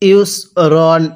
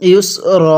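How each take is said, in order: First: The word ends with an n sound. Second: The word ends without an n sound. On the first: The reading continues without stopping. "কিভাবে পড়তে হবে?" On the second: The reader stops at this word. "এখন যদি এখানে ওয়াকফ করি তাহলে কিভাবে পড়ব?"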